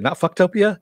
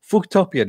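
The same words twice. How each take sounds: First: Not Fucktopia, with a short fuck sound. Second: Fucktopia said as foock-topia. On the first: Correcting the visitors, Fucktopia said as fuck-topia. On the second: To the newcomers, Fucktopia said as foock-topia. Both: Retold or imitated. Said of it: "how do you say that".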